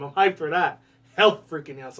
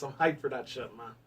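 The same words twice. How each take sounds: First: Louder hyped-up cheer. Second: Said in the usual way. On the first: Real, not acted. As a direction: get pumped about it. Excited about announced game.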